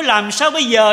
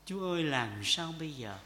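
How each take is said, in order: First: "Làm sao bây giờ" cried out loud and high, falling on "sao"; a loud, high, desperate "Làm sao bây giờ"; loud desperate plea. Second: Said in the usual way. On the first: Shown as a demonstration. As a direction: cry "Làm sao bây giờ" out to God, much louder and higher. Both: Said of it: "Phải nói".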